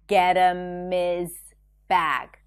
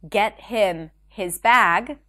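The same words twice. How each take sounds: First: The H sounds in 'him' and 'his' are dropped. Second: The H sounds in 'him' and 'his' are pronounced. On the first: "So him and his turn into and is" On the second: "Instead of saying get him his bag"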